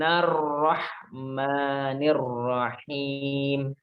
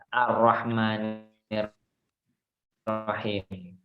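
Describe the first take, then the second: First: The opening 'a' vowel is dropped into the previous word. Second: The opening 'a' vowel is clearly pronounced. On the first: The phrase is joined to what comes before. "Kalau kita sambung, dia tidak dibaca A" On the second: The phrase starts a new reading. "Di situ bacanya adalah A"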